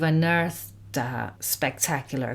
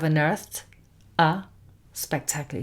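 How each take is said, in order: First: The words run together smoothly as one unit. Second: The words are separated with small breaks between them. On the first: The speaker calls it right. "We just pronounce as a single unit of sound" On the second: The speaker calls it wrong.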